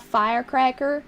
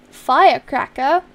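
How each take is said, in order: First: Put-on Southern US accent; Georgie Cooper accent. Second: Said in the usual way. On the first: Shown as a demonstration. Streamer reads chat's firecracker request in a Southern accent. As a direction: say firecracker with a light Southern twang. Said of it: "You can't do the accent without saying".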